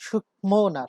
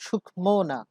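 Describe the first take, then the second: The two takes are said the same way.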